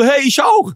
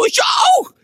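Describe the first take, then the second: First: Higher, louder, thrilled exclamation; higher and louder, delighted; excited. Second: Much higher, shouted squeal of joy; much higher and louder, overjoyed shriek; ecstatic shout. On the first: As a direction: react like the coincidence is too good. Same district, rising excitement. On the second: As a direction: scream it like you just won. Same village, peak excitement. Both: Retold or imitated.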